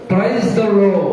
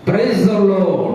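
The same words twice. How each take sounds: Both takes have the same delivery.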